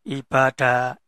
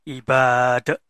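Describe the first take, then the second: The two takes are said the same way.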